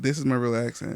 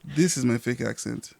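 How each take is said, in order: First: Low, soft American-accented English. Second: Low, soft African-accented English. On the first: Podcast guest showing the others their real accent, American accent. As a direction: settle into an easy American accent, pitched down. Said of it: "it's with an American accent". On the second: Podcast guest showing the others their fake accent, African accent. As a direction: put on an African accent, pitched down. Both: Shown as a demonstration.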